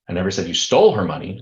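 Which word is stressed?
stole. The stress is on "stole".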